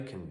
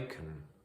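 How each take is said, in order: First: The vowel in can is reduced to a schwa. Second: The vowel in can is full and clear. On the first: "the weakened form in something like I can do it. So it becomes more like kun" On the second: "the strong can"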